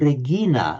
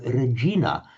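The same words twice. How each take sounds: First: The g is hard, as in go. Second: The g is soft, like a j. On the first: This is the older classical pronunciation. "classical Latin was very likely to have been Regina" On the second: This is the later church pronunciation. "the G to J was a later phenomenon"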